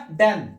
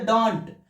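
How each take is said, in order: First: "डन" for don't, short vowel and dropped t; short spoken pronunciation. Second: "डोंट" with long o and hard final t; Indian-style pronunciation. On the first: Teacher giving the spoken pronunciation, reduced to डन. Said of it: "लेकिन इसका pronunciation क्या होगा". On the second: Teacher contrasting the Indian way, full vowel and t. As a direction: say "डोंट" fully, as it is spelt. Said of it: "भारतीय भाषा में Indian language बोलना है तो". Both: Shown as a demonstration.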